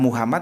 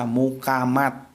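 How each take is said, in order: First: It is said with a standard Arabic-like pronunciation. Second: It is said with a Javanese k and final t.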